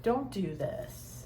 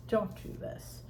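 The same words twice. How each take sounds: First: Said in the usual way. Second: Breathy whispered Don't do this; whispered plea. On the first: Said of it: "pleading warning, repeated". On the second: Shown as a demonstration. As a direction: whisper it as a soft warning. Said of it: "repeated softer, whispered".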